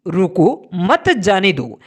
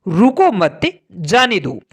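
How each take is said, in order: First: रुको, then a pause, मत जाने दो joined together; pause after रुको. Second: रुको मत run together, then a pause before जाने दो; pause after मत. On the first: Teacher showing a comma that means stop, pause after रुको. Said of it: "कोमा लगाई है और इसके प्रभाव से". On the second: Teacher showing a comma that means let go, pause after मत. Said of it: "यहाँ पर हमने कोमा का प्रयोग". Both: Shown as a demonstration.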